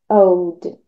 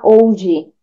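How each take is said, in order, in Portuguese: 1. O D final é suave, sem vogal extra. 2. Um som de vogal extra "i" vem depois do D final. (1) "deixa bem sutil esse old" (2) "tomar cuidado para não falar old, porque muitos estudantes brasileiros de inglês têm uma tendência de inserir ali um som de I"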